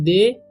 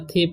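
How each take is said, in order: First: It is said with a long 'day' sound. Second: It is said with a breathy 'thay' sound. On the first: "बहुत सारे students गलती करते हैं" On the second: "बहुत सारे students गलती करते हैं"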